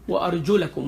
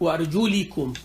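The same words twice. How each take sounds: First: The vowel after the L is an 'a'. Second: The vowel after the L is an 'i'. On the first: This follows one accepted reading tradition. "with the fatha" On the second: This follows another accepted reading tradition. "with the kasra"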